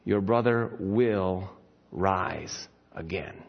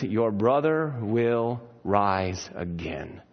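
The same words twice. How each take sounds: First: Lower, slow, tender promise; gentle Jesus. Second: Gentle Jesus. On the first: Jesus gently comforting grieving Martha, slow and soft. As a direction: say it softly and slowly, like comfort. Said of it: "and he says". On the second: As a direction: lower and slow, tender. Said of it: "And he says". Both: Retold or imitated.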